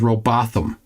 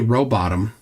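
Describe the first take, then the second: First: The name ends like 'Botham', with a th sound. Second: The name ends like the word 'bottom'. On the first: This is a colleague's chosen pronunciation. "Peter Markley says Rowbotham" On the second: This is the speaker's own chosen pronunciation. "I say Rowbottom"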